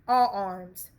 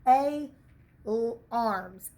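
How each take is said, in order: First: The first vowel sounds like 'ah'. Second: The first vowel sounds like long 'ay'. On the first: "That then says ah" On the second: "open unaccented vowels that happen to be long"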